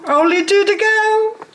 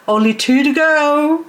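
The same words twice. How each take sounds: First: Very high, playful lilt; silly, sky-high chirp; squeaky sing-song. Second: Lilting high announcement; playful raised lilt; high sing-song. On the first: Pretend. Repeats the count even higher. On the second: Real, not acted. Announces how many plants remain.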